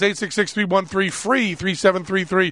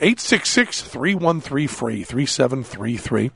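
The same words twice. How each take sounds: First: The number is said at normal speed. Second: The number is said slowly.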